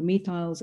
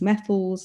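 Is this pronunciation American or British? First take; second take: British; American. First: It is said with a British pronunciation. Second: It is said with an American pronunciation. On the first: "it was no longer methyls" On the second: "it was methyls"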